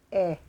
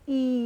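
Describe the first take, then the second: First: The vowel sounds like the letter's phonics sound. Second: The vowel sounds like the letter's name. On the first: The speaker calls it right. "Ang tunog po ng letter E ay E" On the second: The speaker calls it wrong. "Hindi po E"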